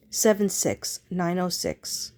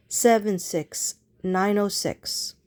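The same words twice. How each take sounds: The two takes are said the same way.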